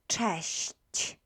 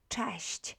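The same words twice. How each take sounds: First: The word is said very slowly. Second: The word is said at normal speed.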